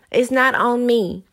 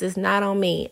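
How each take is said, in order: First: "It's not on me" slow, "not" hit hard and louder; stress on not. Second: Said in the usual way. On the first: Acted. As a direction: lean on "not", drawn out. Repeats refusal, first emphatic.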